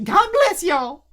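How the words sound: It is said in a put-on imitated voice.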